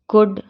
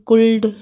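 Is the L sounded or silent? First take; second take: silent; sounded. First: The L is silent before the D. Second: The L is sounded before the D. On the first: The speaker calls it right. "तो हम इसको कैसे पढ़ेंगे" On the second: The speaker calls it wrong. "नहीं पढ़ेंगे"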